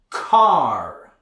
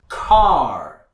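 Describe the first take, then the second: First: It has a strong R after the vowel. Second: The same.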